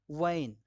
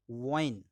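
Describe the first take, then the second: First: वाइन said with a firm v, teeth on the lip; V wine. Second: वाइन with rounded lips, a w glide; वाइन said as wine with pursed lips. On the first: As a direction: bite the V in वाइन. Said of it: "bite your V's". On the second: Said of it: "whistle your W's". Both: Shown as a demonstration.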